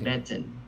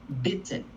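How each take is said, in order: First: The first sound is weak and soft. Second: The first sound is strong and hard. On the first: The speaker calls it wrong. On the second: The speaker calls it right. "it needs to be hard, like the B"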